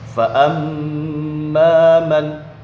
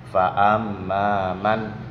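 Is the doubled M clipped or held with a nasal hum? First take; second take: held; clipped. First: The M is pressed and held with a hum. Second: The M is quick, without a nasal hum. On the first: The speaker calls it right. "ditekan dan dibaca dengung" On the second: The speaker calls it wrong. "tidak ditekan juga tidak ada dengung"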